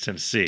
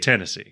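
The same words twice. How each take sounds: First: It is said in the speaker's usual way. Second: It is said like a Tennessee local, aggressively.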